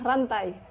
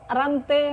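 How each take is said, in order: First: The word ends in an ai diphthong. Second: The word ends in a plain e vowel. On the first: The speaker calls it right. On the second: The speaker calls it wrong.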